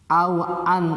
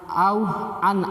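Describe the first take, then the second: No difference in how they are said.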